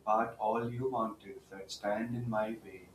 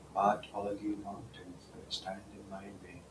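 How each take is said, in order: First: It is said in a full, louder voice. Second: It is said in a softer voice.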